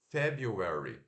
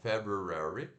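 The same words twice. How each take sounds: First: The second syllable is said with a y sound. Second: The second syllable is said with an r sound. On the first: "ao invés de fazer ru, né? O R U, faz o you" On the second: "você pode fazer o, o, o ro, ro, ro, ro, ro lá"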